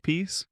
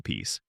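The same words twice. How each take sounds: First: "peace." lifted high on a rising tune. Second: "peace." sunk low and soft at the end; peace dropped low. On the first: Preacher mocking earned rest, "peace." lifted high and rising. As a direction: float "peace." up high like a question. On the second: Preacher setting aside hollow peace, "peace." dropped low and soft. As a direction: let "peace." fall low and fade. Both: Shown as a demonstration. Listing kinds of false peace.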